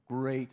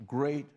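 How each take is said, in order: Both takes have the same delivery.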